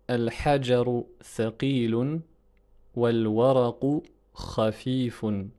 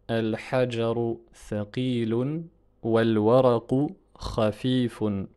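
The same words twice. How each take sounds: The two takes are said the same way.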